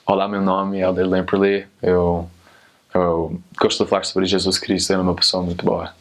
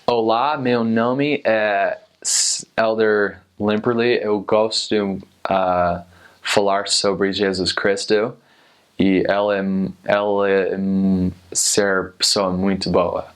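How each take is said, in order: First: It has a fluent native Portuguese accent. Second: It has a halting beginner American accent.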